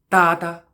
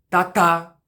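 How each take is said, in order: First: The stress is on the first syllable. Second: The stress is on the second syllable. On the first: "com a mesma nota, fazer para"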